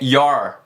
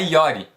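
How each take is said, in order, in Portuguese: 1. A palavra termina com som de R. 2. A palavra termina com uma vogal acrescentada. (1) "é your, your, som de R no final" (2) "não é yori ou yore"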